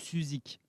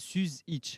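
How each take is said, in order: First: The name ends with a k sound. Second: The name ends with an itch sound. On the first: This is the form adapted to fit in locally. "je me suis un peu intégré. Et du coup, c'est devenu Suzik" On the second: This is the original Bosnian form of the name. "en bosniaque, c'est itch normalement"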